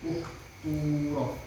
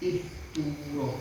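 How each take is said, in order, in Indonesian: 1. Vokal pertama adalah bunyi u bulat. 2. Vokal pertama adalah bunyi i depan. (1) "Kalau kop dan taknya harokatnya domah ya domah"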